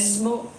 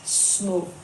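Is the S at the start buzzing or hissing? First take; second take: buzzing; hissing. First: The S at the start is buzzing. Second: The S at the start is hissing. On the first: The speaker calls it wrong. "Not okay" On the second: The speaker calls it right. "it's små, no voiced S"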